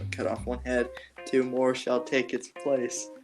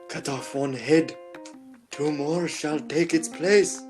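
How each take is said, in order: First: It is said in a plain, unconvincing voice. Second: It is said in a put-on dramatic voice.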